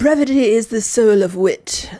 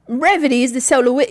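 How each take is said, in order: First: It is said in an ordinary accent. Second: It is said in a Cockney accent.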